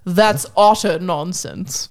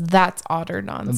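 First: It is said in a British accent. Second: It is said in the speaker's ordinary accent.

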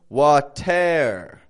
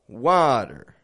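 First: Both syllables are stretched out evenly. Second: A strong first syllable, then a weaker one. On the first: The speaker calls it wrong. "I'm not stretching out the whole word" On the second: The speaker calls it right. "I'm just breaking it up"

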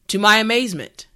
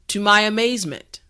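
No difference in how they are said.

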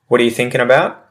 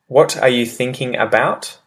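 First: The words run together in a shortened form. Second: Each word is said fully and separately. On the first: "how it changes in pronunciation afterwards" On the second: "using the well-enunciated example first"

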